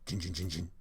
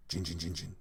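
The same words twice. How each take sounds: The two takes are said the same way.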